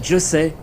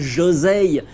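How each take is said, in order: First: The middle consonant is a clear s sound. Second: The middle consonant is a voiced z sound. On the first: The speaker calls it right. "un très beau manga Josei" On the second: The speaker calls it wrong. "et pas un Josei"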